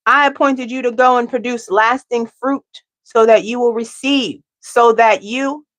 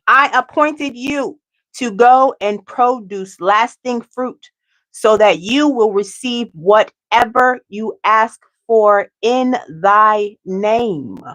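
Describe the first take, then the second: First: Said in the usual way. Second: Slow scripture reading, each word laid down; slowed-down solemn reread of the verse; slow, deliberate reading. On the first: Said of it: "hold on, let me say it again". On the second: Shown as a demonstration. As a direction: read it again slowly and carefully. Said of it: "let me say it again".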